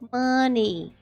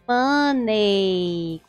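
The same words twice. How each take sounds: First: The word ends with an 'ee' vowel sound. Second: The word ends with an 'ay' vowel sound. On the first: The speaker calls it right. "a pronúncia mais aceita ou mais escutada" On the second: The speaker calls it wrong. "com esse som de ei no final"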